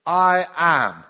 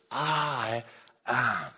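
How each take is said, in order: First: Loud, ringing "I am"; commanding declaration. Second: Slow "I" then "am", each word given weight; emphatic I am. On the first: Acted. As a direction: proclaim it with full authority. Jesus declares himself to soldiers. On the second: Shown as a demonstration. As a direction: press hard on "I" and on "am". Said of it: "it's giving emphasis".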